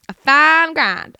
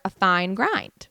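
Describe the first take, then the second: First: Put-on loud, high, drawn-out twangy accent; put-on twang. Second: Said in the usual way. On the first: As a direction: stretch it out in a mock twangy accent. Repeats phrase in put-on twang.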